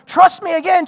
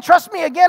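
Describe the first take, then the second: First: Loud, high trust me again; demanding, raised voice; insistent plea. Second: Loud, high again, hammering the words; same raised insistence; repeated insistent plea. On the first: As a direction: push hard for trust right now. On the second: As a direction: repeat the demand just as hard. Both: Retold or imitated. Spouse pleading for trust.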